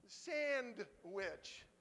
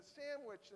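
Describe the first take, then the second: First: "sandwich" split in two, SAND loud and drawn out, then wich; stress on SAND. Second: Said in the usual way. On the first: Shown as a demonstration. Joking about sand in lunch, "sandwich" split as SAND-wich. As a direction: break "sandwich" into SAND... wich, punching the first half.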